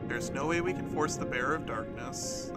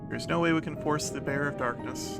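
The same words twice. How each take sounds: First: The recording level is lower, peaking less hot. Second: The recording level is too high, peaking hot.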